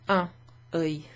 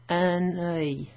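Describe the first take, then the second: First: The n sound does not link to the next word. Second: The n sound links into the next word. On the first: "Otherwise it'd be" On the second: "you pronounce the N before the O"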